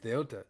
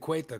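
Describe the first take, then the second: First: The 'eh' vowel comes before the 'oo' vowel. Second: The 'oo' vowel comes before the 'eh' vowel. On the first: The speaker calls it right. "It's it's Ceuta" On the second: The speaker calls it wrong. "everybody's been saying Cueta"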